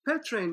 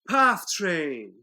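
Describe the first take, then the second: First: The first word sounds like 'pet'. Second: The first word sounds like 'path'. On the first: The speaker calls it wrong. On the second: The speaker calls it right.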